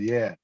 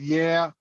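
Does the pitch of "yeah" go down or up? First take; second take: down; up. First: The pitch goes down on the word. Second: The pitch goes up high on the word. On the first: This is how a southern speaker says it. "with us, it's down" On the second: This is how a northern speaker says it. "it goes up high"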